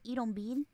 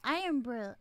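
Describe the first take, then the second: First: It is said with a Puerto Rican Spanish pronunciation. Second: It is said with a standard English pronunciation. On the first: "my Puerto Ricanness, we pronounce it Irombin" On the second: "but it's Iron Brew"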